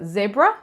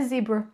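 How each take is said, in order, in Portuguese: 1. A palavra é dita do jeito do inglês britânico. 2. A palavra é dita do jeito do inglês americano. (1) "No britânico" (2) "em inglês americano é zebra"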